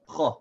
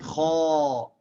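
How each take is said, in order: First: The vowel is short and full. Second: The vowel is drawn out long. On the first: The speaker calls it right. "It's still a short vowel" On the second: The speaker calls it wrong. "It's not kha. It's not a long vowel"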